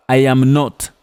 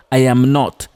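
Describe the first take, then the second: No difference in how they are said.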